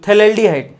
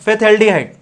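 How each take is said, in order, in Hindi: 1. शब्द की शुरुआत में 'th' की आवाज़ है, 'f' नहीं। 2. शब्द की शुरुआत में साफ़ सुनाई देने वाली 'f' की आवाज़ है। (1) "इसमें पीएच साइलेंट रहता है" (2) "फिथ एल्डिहाइड ये इसका नाम है"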